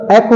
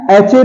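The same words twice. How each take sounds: First: Said in the usual way. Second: एच ए with a "ch" sound; wrong pronunciation. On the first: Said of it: "एच silent है". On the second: Shown as a demonstration. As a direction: say ch, not k, in एच ए. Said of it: "नहीं है".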